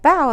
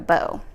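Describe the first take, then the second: First: It is said like bowing to someone. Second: It is said like a ribbon bow. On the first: The speaker calls it right. "like you're bowing to someone" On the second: The speaker calls it wrong. "not like a bow"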